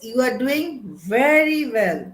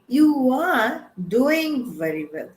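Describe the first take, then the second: First: The stress falls on the word very. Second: The stress falls on the word doing. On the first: The high quality of the work is being praised. "focus is on excellence" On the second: The action itself is being praised. "the focus is on an action"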